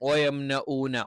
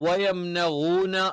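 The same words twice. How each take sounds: First: The middle consonant is a plain glottal stop. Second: The middle consonant is a gargled ghain sound. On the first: "ഹംസ ആയിട്ട് പറയും" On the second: "ഗൈനായിട്ട് പറയും"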